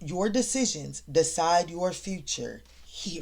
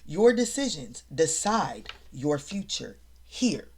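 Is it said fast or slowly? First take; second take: fast; slowly. First: It is said fast. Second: It is said slowly.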